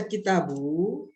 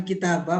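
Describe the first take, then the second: First: Kitabu ending in "boo"; final -u vowel. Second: Kitabah ending in open "bah"; final -a vowel. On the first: Teacher asking the reason for the reading, "kitabu" with final u. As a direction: end "kitabu" on u. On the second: Teacher contrasting a possible reading, "kitabah" with final a. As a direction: end "kitabah" on a. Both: Shown as a demonstration. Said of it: "bukan kitabah".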